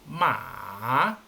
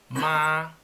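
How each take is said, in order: First: It is said with the third tone. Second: It is said with the first tone. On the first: It means horse. "con tono tres" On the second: It means mother. "con tono uno"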